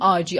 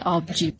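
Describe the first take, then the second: First: The word has no b sound before the j. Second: The word has a b sound before the j. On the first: This is the local dialect form. "ما میگیم آجی" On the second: This is the standard Persian form. "تو فارسی میگن آبجی"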